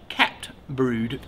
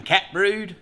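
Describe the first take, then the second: First: "cat brood" said as "capped brood", with a clear P before the T; "cat brood" pronounced kapt brood; capped, not cat. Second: "cat brood" with a plain T ending "cat"; "cat brood", first word simply cat; misheard as cat. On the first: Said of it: "he was saying". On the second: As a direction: say "cat brood" as in the pet, no P sound. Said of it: "I honestly thought he was saying". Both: Shown as a demonstration.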